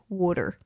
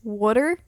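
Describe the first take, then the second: First: Water is said the New Jersey way. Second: Water is said the Virginia way.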